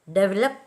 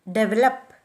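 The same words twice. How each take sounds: First: De-VEL-op, stressed on the second syllable; stress on the root. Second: DE-velop, with the first syllable stressed. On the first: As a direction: develop accented after the prefix. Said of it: "are accented on the root". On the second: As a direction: develop accented at the front, as some Indian English speakers do. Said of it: "are accented on the first syllable". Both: Shown as a demonstration.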